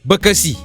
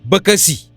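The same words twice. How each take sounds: The two takes are said the same way.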